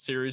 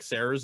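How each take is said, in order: First: The first syllable sounds like 'seer'. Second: The first syllable sounds like 'say'. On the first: The speaker calls it right. "Dude, no, it's Series" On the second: The speaker calls it wrong. "He thought it was like Sayers"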